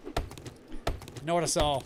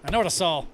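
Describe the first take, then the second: First: Drawn out, lower and softer; slow and quiet. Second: Said in the usual way. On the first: Shown as a demonstration. Repeating her own line, slower and softer this time. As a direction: let each word sink in slowly. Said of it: "repeats the line slower, lower". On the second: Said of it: "repeats the line two ways".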